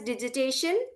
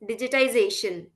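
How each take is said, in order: First: One middle syllable of the word is dropped. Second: Every syllable of the word is said. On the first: The speaker calls it wrong. "digitization is pronounced as digitation" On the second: The speaker calls it right. "Please be mindful, it is digitization"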